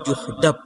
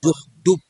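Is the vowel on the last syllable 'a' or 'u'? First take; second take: a; u. First: The last syllable has an 'a' vowel. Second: The last syllable has a 'u' vowel.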